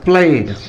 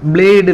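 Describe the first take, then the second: First: The word begins with a voiceless p sound. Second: The word begins with a voiced b sound. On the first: The speaker calls it right. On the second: The speaker calls it wrong. "blade இல்ல"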